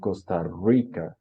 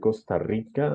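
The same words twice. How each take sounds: First: The R in Rica sounds like English R. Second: The R in Rica is a rolled trill. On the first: "como muy parecido a una R en inglés" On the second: "en lugar de decir"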